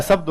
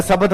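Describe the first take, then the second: First: शब्द as "shabd", one closed syllable; correct pronunciation. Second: शब्द split as "sabad" with an extra vowel; wrong pronunciation. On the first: Teacher gives the correct शब्द. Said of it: "शब्द होता है". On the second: Teacher mimics students saying शब्द as "sabad". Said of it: "अरे शब्द नहीं होता है". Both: Shown as a demonstration.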